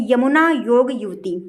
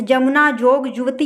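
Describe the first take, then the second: First: Said in the usual way. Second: जमुना, जोग, युवती each opening on j; colloquial pronunciation. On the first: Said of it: "सही शब्द क्या होते हैं". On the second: Shown as a demonstration. Teacher lists words as people say them, all with j. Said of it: "शब्द जो ये बोले जाते हैं".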